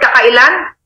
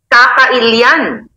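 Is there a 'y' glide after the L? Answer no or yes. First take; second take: no; yes. First: The L is followed directly by the vowel. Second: The L is followed by a 'y' glide sound. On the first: The speaker calls it wrong. "it's not kakailan" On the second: The speaker calls it right.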